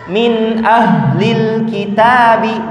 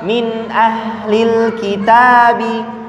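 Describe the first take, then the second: First: The voice resonates strongly in the chest. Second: The voice comes from deep in the throat. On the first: "di dada" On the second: "yang di aksol"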